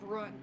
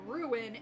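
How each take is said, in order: First: It is said as one syllable, like run. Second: It is said with two syllables. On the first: The speaker calls it wrong. "instead of run" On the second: The speaker calls it right. "he wouldn't accept it until I said ruin"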